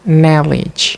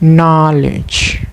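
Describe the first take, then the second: First: The first vowel is an 'uh' sound. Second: The first vowel is an 'ah' sound. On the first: The speaker calls it wrong. "The learner commonly pronounce it as a knowledge" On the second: The speaker calls it right. "instead of knowledge"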